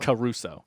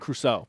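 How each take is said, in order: First: The C is said as its own syllable. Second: The C blends straight into the R. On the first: "I've always pronounced the C as a separate, like it has a hyphen" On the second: "People say"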